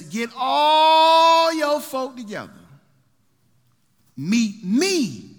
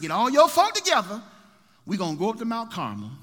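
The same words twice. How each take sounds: First: Slow, drawn-out shout, much higher and louder; booming summons. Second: Raised, higher call to gather the folk. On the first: Elijah shouting to gather the people. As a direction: bellow it out like a prophet calling the nation. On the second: Elijah calling the people together again. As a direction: call them together with force. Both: Acted.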